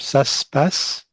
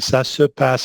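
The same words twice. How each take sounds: First: The vowel in 'se' is dropped. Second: The vowel in 'se' is fully pronounced. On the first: "he drops this um, this E here" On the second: "Instead of saying"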